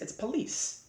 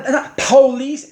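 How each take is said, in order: First: Police said as "puh-LEESE", stress on the second syllable; quiet correction, police as "puh-LEECE"; corrected pronunciation. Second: Police said as "POE-leese", high and punched; mocking mispronunciation. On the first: Shown as a demonstration. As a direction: drop to a soft, standard police, first vowel short. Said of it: "it's not, it's not police". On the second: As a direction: hit police hard on a long first "POH".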